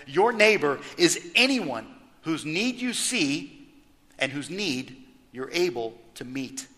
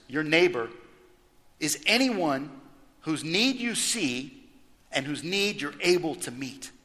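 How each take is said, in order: First: Said in the usual way. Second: Each phrase set apart by pauses, slow on whose need you see; deliberate emphatic restatement of the definition; emphatic slow repeat. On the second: Shown as a demonstration. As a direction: lay out anyone and need with weight, pausing between phrases. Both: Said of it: "And just for emphasis".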